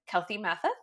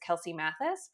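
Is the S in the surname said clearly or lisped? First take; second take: lisped; clear. First: The S in the surname is lisped. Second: The S in the surname is clear. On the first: "people would lisp my name" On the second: "my name is Kelsey Mathis"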